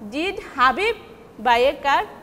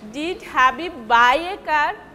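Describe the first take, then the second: First: The stress is on Habib. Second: The stress is on buy.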